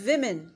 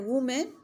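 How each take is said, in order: First: The first vowel sounds like 'i'. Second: The first vowel sounds like 'oo'. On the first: The speaker calls it right. "It is विमेन" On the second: The speaker calls it wrong. "No"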